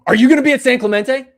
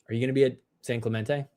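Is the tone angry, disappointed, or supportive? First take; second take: angry; disappointed. First: It sounds angry and harsh. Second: It sounds disappointed and let down.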